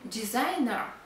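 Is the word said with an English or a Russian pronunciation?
English. It is said with an English pronunciation.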